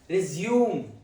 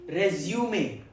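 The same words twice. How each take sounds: First: It is pronounced the way the verb is. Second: It is pronounced the way the noun is. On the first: It means to begin again after an interruption. "Second pronunciation, resume. Resume. It's used as a verb" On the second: It names a document summarizing work history and skills. "First pronunciation, resume. Resume. It's used as a noun"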